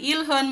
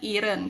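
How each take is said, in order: First: The middle consonant sounds like an L. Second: The middle consonant sounds like an R. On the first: "pinopronounce po nila minsan ilhun" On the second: "kapag sinundan nga po ng um, vowel sound or vowel, ay nagiging R sound po siya"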